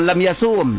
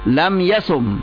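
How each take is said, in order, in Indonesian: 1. Vokal dalam yasum dibaca panjang. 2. Vokal dalam yasum dibaca pendek. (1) "Bukan lam yasum" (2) "maka huruf illatnya dibuang"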